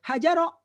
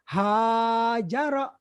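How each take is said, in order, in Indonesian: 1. Vokal pertama pendek. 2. Vokal pertama panjang. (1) "bukan hajaro" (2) "tapi hajaro. Kan ada alifnya itu"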